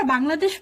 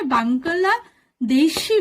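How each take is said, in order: First: বাংলাদেশ run together, ending on sh; বাংলাদেশ at ordinary pace, closed last syllable; usual Bengali pronunciation. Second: বাংলাদেশি slowly broken up as bang-geul-la de-shi; slow, deliberate বাংলাদেশি as Koreans say it; Korean-style pronunciation. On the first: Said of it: "কোরিয়ানরা বাংলাদেশ বলে উচ্চারণ করে না". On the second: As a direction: stretch বাংলাদেশি syllable by syllable, with a hard g and final i. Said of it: "ওরা উচ্চারণ করে". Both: Shown as a demonstration.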